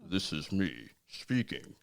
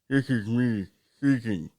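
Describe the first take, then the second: First: Spoken out of the side of the mouth. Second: Spoken as if there were no tongue. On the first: "when you contort your mouth to the side" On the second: "pretend that you don't have a tongue"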